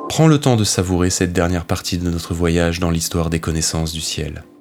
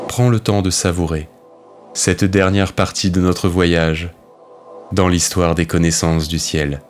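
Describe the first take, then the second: First: It is said in one go without pauses. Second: It pauses after savourer and after voyage.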